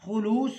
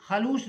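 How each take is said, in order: First: خلوص said as khu-loos, with u in the first syllable; the correct خلوص, khu-loos, first vowel u; خلوص as khulus, said a little louder; correct pronunciation. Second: خلوص said as kha-loos, with a short a in the first syllable; the mispronounced خلوص, kha-loos, first vowel a; خلوص as khalus, the common mistake; wrong pronunciation. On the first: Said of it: "لفظ ہے خلوص". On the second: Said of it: "خلوص نہیں پڑھیں گے". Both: Shown as a demonstration.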